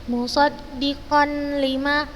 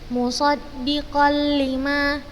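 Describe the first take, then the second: First: The n is kept as a separate sound. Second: The n merges fully into the l without nasality. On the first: The speaker calls it wrong. "Ustazah bukan membacanya musaddiqan lima, la" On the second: The speaker calls it right. "seperti itu"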